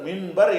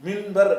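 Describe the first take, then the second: Both takes have the same delivery.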